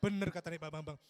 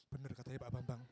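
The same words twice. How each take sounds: First: Louder, firm declaration; emphatic confirmation. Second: Low-pitched, private confirmation; low aside. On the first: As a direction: repeat it out loud with emphasis. Repeats confirmation more emphatically. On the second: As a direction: say it low, as if to oneself. Acts guest confirming hotel's scent. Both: Acted.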